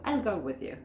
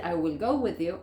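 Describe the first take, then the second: First: "I'll" run into one syllable; "I'll" as one short word; contracted form. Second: "I will" as two full words; every word of "I will" sounded; full form. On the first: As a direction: contract to "I'll", then "go with you". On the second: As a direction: say "I will" uncontracted before "go with you". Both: Shown as a demonstration. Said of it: "En vez de decir".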